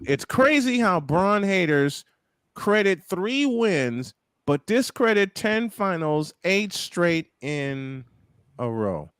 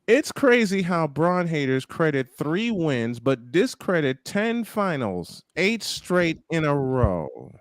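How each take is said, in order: First: It is read slowly. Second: It is read at normal speed.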